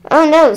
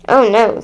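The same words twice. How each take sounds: First: Lightly voiced mother, higher; a hint of a concerned mom; mother's dismay. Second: Lightly voiced father; a hint of a concerned dad; father's dismay. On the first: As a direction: raise the pitch for the mother. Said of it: "said her mother". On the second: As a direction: read it as the father, in your own pitch. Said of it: "said her father". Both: A narrator's reading.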